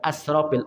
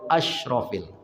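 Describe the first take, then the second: First: It has a thin 's' sound. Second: It has a thicker 'sh' sound. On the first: It means the most wasteful. The speaker calls it wrong. "Bukan asrafil" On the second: It means the most noble. The speaker calls it right. "Agak tebal sikit bunyinya asyrafil"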